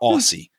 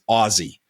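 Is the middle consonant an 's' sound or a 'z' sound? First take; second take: s sound; z sound. First: The middle consonant is an s sound. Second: The middle consonant is a z sound. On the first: The speaker calls it wrong. "not Aussie" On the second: The speaker calls it right. "the correct pronunciation for Americans is Aussie, like [name]"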